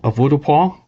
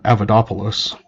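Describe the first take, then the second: First: The word ends with a French-sounding 'wah' ending. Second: The word ends with a Greek-sounding 'poulos' ending. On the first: The speaker calls it right. "that's the actual name of it" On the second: The speaker calls it wrong. "he calls it uh"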